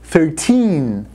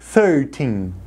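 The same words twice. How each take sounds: First: The stress is on the second syllable. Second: The stress is on the first syllable. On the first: The speaker calls it right. "a sílaba tônica dessas palavras é o teen" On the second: The speaker calls it wrong. "não pode falar thirteen"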